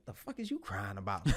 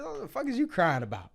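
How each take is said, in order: First: Said in the usual way. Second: Laughing mock disbelief; laughing retelling. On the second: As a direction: repeat it high and loud through a laugh. Repeats quote, laughing.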